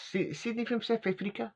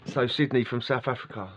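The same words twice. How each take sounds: First: Put-on high, questioning South African accent on Sydney; mock South African lilt, pitched up. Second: Said in the usual way. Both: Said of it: "I can't keep doing his accent".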